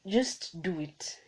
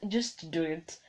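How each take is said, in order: Both takes have the same delivery.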